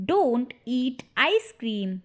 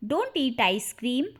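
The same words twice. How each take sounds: First: "Don't eat ice cream" slowly, word by word; slow repeat. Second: Said in the usual way. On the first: Shown as a demonstration. Slower repeat for learners. ("Don't eat ice cream" धीरे, शब्द अलग-अलग)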